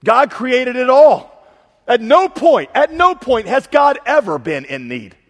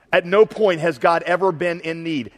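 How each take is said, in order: First: Slow, loud, high declaration; full-force preaching. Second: Said in the usual way. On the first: Real, not acted. Preacher declaring God's sufficiency to the congregation, loud and slow. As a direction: thunder it out to the room.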